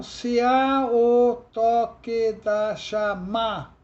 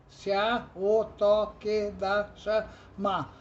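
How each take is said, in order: First: "se há o toque da chama" slow and louder, each syllable separated; scanning the verse. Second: "Se há o toque da chama" again slowly at normal level, syllables spaced; slow repeat. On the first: Teacher scanning "se há o toque da chama" for the class, slow and loud. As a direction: count out "se há o toque da chama" slowly. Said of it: "é sete, é na sétima". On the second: Teacher repeats "Se há o toque da chama" slowly to confirm the count. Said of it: "é para a sétima sílaba tônica". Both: Shown as a demonstration.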